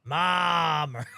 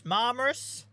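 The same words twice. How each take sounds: First: Marmaris with a long, loud stretched A; drawn-out A. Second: Marmaris pitched high, ending in a questioning rise; unsure second attempt. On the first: Norfolk streamer joking about eight A's, drawn-out Marmaris. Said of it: "stick about eight A's in the middle". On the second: Streamer asking how to say a resort's name, questioning Marmaris. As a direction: have a second, higher guess at Marmaris. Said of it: "how do you say that?". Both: Shown as a demonstration.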